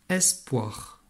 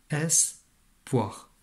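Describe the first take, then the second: First: Said in the usual way. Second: "Espoir" split as "es... poir" with a clear pause; découpage en syllabes. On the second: Shown as a demonstration. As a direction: break "Espoir" into two separate syllables. (« es… poir », lentement, en deux morceaux) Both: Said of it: "il y en a deux syllabes".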